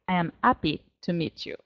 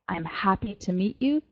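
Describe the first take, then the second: First: The h in happy is dropped, French-style. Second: The h in happy is pronounced normally. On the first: "They say"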